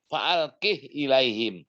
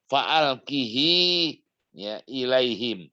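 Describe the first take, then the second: First: The pronoun ends without a following vowel. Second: The pronoun ends with an added long i vowel. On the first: This is one traditional reading. "Kalau hafaz" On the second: This is the other traditional reading. "di sini"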